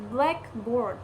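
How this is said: The stress falls on black. It names one specific kind of object. "stress first, lexicalized compound"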